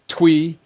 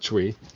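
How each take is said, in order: First: The word starts with a 'tw' sound. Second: The word starts with a 'tr' sound. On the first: The speaker calls it right. "twee, not tree" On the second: The speaker calls it wrong. "not tree"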